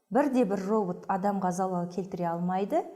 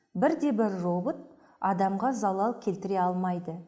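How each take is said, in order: Both takes have the same delivery.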